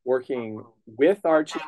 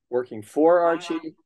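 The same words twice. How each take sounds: First: Slow, weight on "with"; "with" lengthened and marked; stress on with. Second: Slow, leaning on "for"; "for" slowed and lifted higher; stress on for. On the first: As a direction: say "working with Archie" hitting "with". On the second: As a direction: say "working for Archie" with "for" drawn out. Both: Real, not acted. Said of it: "contrast for / with / boss".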